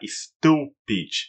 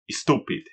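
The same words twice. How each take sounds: First: One part of the word is said much louder. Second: The word is said without exaggerated loudness. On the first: It sounds like a beginner speaking. The speaker calls it wrong. "pronúncia iniciante ... acha que você tem que falar uma certa parte mais alto que as outras" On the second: It sounds like a typical speaker today. The speaker calls it right. "a maioria das pessoas hoje em dia falaria"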